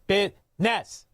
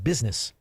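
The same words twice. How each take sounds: First: The word is pronounced in a mangled, nonstandard way. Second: The word is pronounced in the standard way. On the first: The speaker sounds unable to run a legitimate business. "don't don't pronounce it right" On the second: The speaker sounds capable of running a legitimate business. "you said it correctly"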